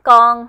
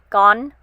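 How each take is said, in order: First: Southern accent, with a g-like sound added at the end. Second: Northern accent, ending without the added g sound. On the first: "in a southern dialect or southern accent ... I kind of add a G at the end" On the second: "learn the northern dialect or northern accent because they enunciate the letters"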